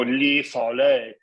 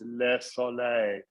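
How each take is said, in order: First: The vowel in the first word is closed. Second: The vowel in the first word is open. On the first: The speaker calls it wrong. "you don't go li soleil" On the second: The speaker calls it right. "it's le soleil"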